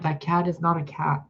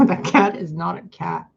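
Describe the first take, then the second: First: Said in the usual way. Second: "That cat is not a cat" said through a real laugh, louder; cracking up as you repeat "That cat is not a cat"; giggling disbelief at "That cat is not a cat". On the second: Real, not acted.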